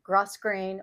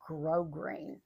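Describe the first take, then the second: First: The first syllable is said with an s sound. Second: The first syllable is said without an s sound. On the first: The speaker calls it wrong. "It's not grosgrain" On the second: The speaker calls it right. "It is grosgrain"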